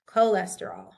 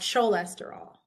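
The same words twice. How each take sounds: First: The word begins with a hard K sound. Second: The word begins with a CH sound. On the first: The speaker calls it right. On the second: The speaker calls it wrong.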